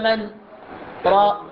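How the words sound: A short pause separates the two words. The speaker calls it right. "نقول وقيل من راق وسكت بمقدار حركتين بدون أخذ النفس"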